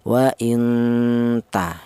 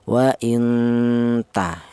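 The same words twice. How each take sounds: First: The n is blurred into a nasal sound. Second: The n is blurred into a nasal sound.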